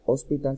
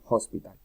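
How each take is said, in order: First: The h at the start is silent. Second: The h at the start is breathed out. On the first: The speaker calls it wrong. "no se pronuncia hospital" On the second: The speaker calls it right. "sino hospital"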